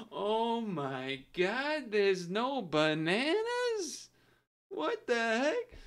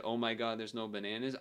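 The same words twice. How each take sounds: First: Very slow, high-pitched dramatic outburst; dramatic old man. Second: Said in the usual way. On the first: Retold or imitated. Streamer re-enacting the old guy's shock, slow dramatic voice. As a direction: draw it out with theatrical disbelief. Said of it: "It was like a dramatic". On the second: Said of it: "And he actually said".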